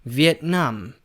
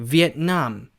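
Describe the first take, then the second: First: The stress is on the last syllable. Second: The stress is on the last syllable.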